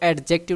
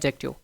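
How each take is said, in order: First: The d sound is clearly pronounced. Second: The d sound is left silent. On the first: The speaker calls it wrong. "इसको एडजेक्टिव नहीं पढ़ते" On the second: The speaker calls it right. "डी silent है, एडजेक्टिव पढ़ते हैं। सही"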